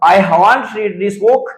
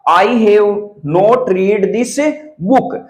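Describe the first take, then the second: First: Have not is joined into one short word. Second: Have not is said as two full words.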